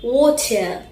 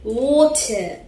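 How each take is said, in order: First: It is said in a British accent. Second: It is said in a British accent.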